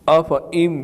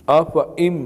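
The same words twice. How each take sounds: No difference in how they are said.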